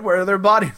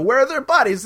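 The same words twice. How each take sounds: First: Said in the usual way. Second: Higher-pitched mock exasperation; exasperated. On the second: Zaroff pressing the priest for the bodies, mock exasperated. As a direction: demand it as an impatient villain would.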